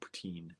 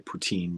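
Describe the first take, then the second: First: It is said with a French pronunciation. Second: It is said with an American English pronunciation. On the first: "but in French" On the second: "I know I say poutine"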